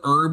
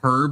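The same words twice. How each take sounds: First: The word starts without an h sound. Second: The word starts with an h sound. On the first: The speaker calls it wrong. "the kind of guy that says herb" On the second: The speaker calls it right. "like a normal person? You know, the H is there for a reason"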